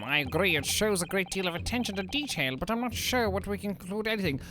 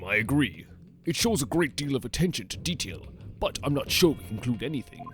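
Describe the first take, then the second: First: It is said in a soft, whiny voice. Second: It is said in a plain, gruff voice.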